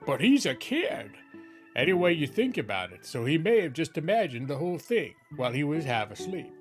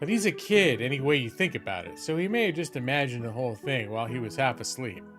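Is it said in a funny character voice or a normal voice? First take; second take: funny; normal. First: It is said in a weird put-on character voice. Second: It is said in the speaker's normal voice.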